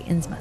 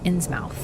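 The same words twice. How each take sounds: First: The final syllable is reduced and clipped short. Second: The final syllable is said fully, like mouth. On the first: The speaker calls it right. "thank you, chat, for teaching me how to say Innsmouth" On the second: The speaker calls it wrong. "I used to say Innsmouth"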